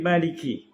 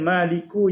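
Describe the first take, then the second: First: The word ends with an i vowel. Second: The word ends with an u vowel. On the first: "jadi Maliki Yaumiddin" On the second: "Maliku jadi"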